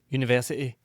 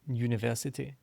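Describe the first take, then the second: First: Some syllables are reduced and run together. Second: Every syllable is clearly and fully pronounced. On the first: This is the speaker's natural home accent. "would be how I would normally say it" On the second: This is the speaker's changed, posher accent. "Pronounce everything to make sure that all those syllables get pronounced"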